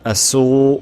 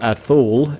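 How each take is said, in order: First: It is said without a Peninsular Spanish accent. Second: It is said with a Peninsular Spanish accent.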